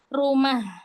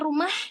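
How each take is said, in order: First: The final h is light and ordinary. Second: The final h is exaggerated and heavy. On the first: The speaker calls it right. "rumah biasa ha" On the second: The speaker calls it wrong. "enggak lebay gitu"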